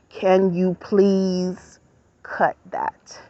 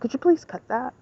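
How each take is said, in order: First: It is said in a deeper voice. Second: It is said in her normal voice.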